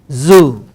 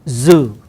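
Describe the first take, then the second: No difference in how they are said.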